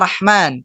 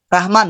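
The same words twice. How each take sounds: First: The r and h sound like Arabic ones. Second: The r and h sound like Indonesian ones. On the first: The name is the divine attribute itself. The speaker calls it wrong. "bukan ya Rahman" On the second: The name is used as an ordinary Indonesian word. The speaker calls it right. "tapi ra, ra-nya Indonesia"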